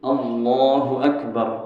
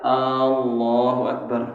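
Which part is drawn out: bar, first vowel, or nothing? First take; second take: nothing; first vowel. First: All vowels are kept short. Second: The first vowel is drawn out long. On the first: The speaker calls it right. "Hanya pendek" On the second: The speaker calls it wrong. "Kalau alnya panjang, ... nggak sah"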